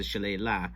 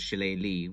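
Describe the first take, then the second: First: Shillelagh ending in "lah"; town-name pronunciation. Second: Shillelagh ending in "lee"; common pronunciation. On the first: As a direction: say shillelagh as shi-LAY-lah. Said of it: "it starts as a shillelagh". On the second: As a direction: say shillelagh as shi-LAY-lee. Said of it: "but then it gets pronounced shillelagh". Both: Shown as a demonstration.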